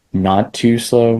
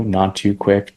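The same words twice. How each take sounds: First: Slow. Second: Said in the usual way. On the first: Shown as a demonstration.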